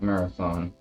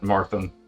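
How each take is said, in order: First: The name is said with three full syllables. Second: The name is squeezed into two syllables. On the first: The speaker calls it right. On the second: The speaker calls it wrong.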